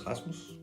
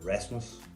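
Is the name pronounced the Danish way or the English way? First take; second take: Danish; English. First: The name is said with a Danish pronunciation. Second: The name is said with an English pronunciation. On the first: "it's probably not pronounced like that if you are English speaking natively" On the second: "It's probably gonna be a, a Rasmus"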